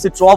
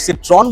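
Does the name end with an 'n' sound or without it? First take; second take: without n; with n. First: The name ends without any 'n' sound. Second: The name ends with a clear 'n' sound. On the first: The speaker calls it right. "French में N pronounce नहीं होता" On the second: The speaker calls it wrong. "सिट्रॉन बोलते हैं"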